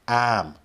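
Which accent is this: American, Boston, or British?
Boston. Boston accent, with no r sound. "I don't have a Boston accent either, but it would be something like"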